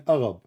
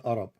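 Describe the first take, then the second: First: Arab as the other speaker just said it; mimicked mispronunciation. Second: Arab said the proper way, lower; corrected pronunciation. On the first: Debater catching out his opponent's word, mimicked mispronunciation of "Arab". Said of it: "I just heard you saying". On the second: Shown as a demonstration. Debater correcting his opponent's word, corrected pronunciation of "Arab". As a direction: set "Arab" right against the mimicked version. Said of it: "I just heard you saying Arab, not Arab".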